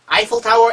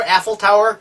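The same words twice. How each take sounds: First: "아이플" starting like English "eye"; first syllable of "아이플" as a glide from a to i; Eiffel as "아이플". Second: "애플" starting with one plain e sound, no glide; single front vowel opening "애플"; Eiffel as "애플". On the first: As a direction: say "아이플 타워" with an opening "eye" sound. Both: Shown as a demonstration. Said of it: "둘 다 써봐요".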